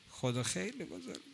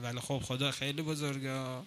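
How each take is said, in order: First: خدا خیلی بزرگه breathed out much softer; near-whispered awe. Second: Softened awe. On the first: Preacher marvelling at God to the congregation, almost whispered. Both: Real, not acted.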